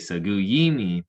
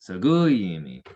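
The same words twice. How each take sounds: First: The stress falls on the long 'yi' syllable. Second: The high stress falls on the 'gu' syllable. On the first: The speaker calls it wrong. "most people put the emphasis on the I's, on the long I there" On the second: The speaker calls it right. "notice the the high tone on the U's"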